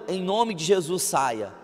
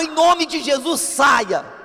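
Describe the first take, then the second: First: It is said quietly and calmly. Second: It is said loudly and forcefully. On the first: "muito calmo" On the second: "Se você é explosivo igual eu"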